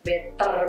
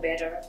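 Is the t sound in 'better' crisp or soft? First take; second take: crisp; soft. First: The t in the middle is strongly pronounced. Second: The t in the middle is soft and unstressed. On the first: "kalau ibu tidak better banget" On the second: "tag-nya nggak ditekankan, lebih ke better"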